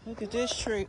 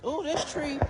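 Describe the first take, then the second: First: Said in the usual way. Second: Admiring ooh. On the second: Real, not acted. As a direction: marvel at the tree like it's a treasure. Showing kids a tree again.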